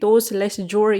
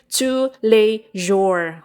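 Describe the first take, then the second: First: It is read out like English spelling. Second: It is pronounced the French way. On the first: This is how the speaker used to think it was said. The speaker calls it wrong. "kakala ko dati tous les jours yan" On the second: This is the proper French pronunciation. The speaker calls it right. "French word pala ito"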